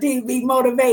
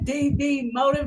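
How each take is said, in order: First: The name ends with the sound 'motivate'. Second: The name ends with the sound 'motive'. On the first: The speaker calls it right. "Get it right" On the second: The speaker calls it wrong. "Did I say that right or did I not?"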